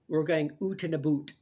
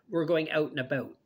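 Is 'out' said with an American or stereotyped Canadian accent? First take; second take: stereotyped Canadian; American. First: It is said with a stereotyped Canadian accent. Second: It is said with an American accent.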